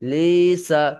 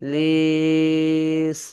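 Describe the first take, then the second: First: The word ends with a vowel after the s. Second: The word ends on the s with no vowel. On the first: The reading continues without stopping. "সিন জবর সা" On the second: The reader pauses at this point. "যখন আপনি আহ, ওয়াকফ করবেন লিস"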